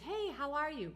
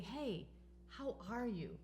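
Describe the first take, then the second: First: It is asked in a quick, casual way. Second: It is asked in a caring, sincere way.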